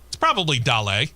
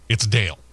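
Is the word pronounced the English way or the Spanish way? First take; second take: Spanish; English. First: It is said as Spanish, two syllables. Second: It is said as the English name, one syllable. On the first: The speaker calls it right. "He's Cuban-American. It's probably Dale" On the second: The speaker calls it wrong. "If you read it in, in English, it's Dale"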